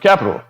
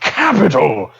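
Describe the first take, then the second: First: The word is said plainly, without extra energy. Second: The word is said with exaggerated, over-the-top energy. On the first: "it's just capital" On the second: "way too much capital"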